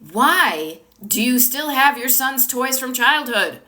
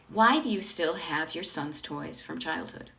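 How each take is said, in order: First: The tone is harsh and judging. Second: The tone is warm, gentle and curious. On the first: The question feels like blame and makes one recoil. The speaker calls it wrong. "I could say the same words with a different tone" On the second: The question comes from love and invites openness. The speaker calls it right. "with gentleness and curiosity and love"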